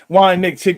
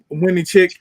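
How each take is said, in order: First: The name begins with 'wine' then 'nick'. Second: The name begins with two syllables, 'win-nie'. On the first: The speaker calls it right. "There we go" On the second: The speaker calls it wrong. "I think I said that right"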